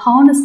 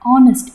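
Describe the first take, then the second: First: The word begins with an h sound. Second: The word begins with a vowel, no h. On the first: The speaker calls it wrong. "ஹானஸ்ட் கிடையாது" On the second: The speaker calls it right. "ஆ sound வருது"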